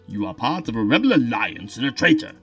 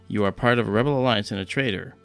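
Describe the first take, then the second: First: The voice sounds deep, hollow and echoing. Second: The voice sounds plain and direct. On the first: The speaker calls it right. "now it's Darth Vader" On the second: The speaker calls it wrong. "that doesn't sound good"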